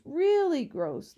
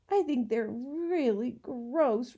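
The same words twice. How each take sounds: First: "really gross" repeated higher and louder, slowly; stronger disgust. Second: Slow, disgusted complaint. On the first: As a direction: push "really gross" harder the second time, slowly. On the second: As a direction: draw out "really gross" with distaste. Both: A narrator's reading. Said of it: "Lindy exclaimed".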